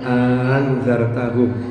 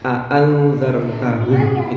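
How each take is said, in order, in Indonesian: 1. Hamzah kedua menjadi bunyi panjang (mad). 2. Kedua hamzah dibaca jelas (tahqiq). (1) "mengganti hamzah yang kedua itu dengan alif" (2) "itu tahqiq"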